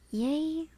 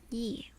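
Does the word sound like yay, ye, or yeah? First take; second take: yay; ye. First: It is said like the word yay. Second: It is said like the word ye. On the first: "Pronounce like yay" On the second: "It is ye, right?"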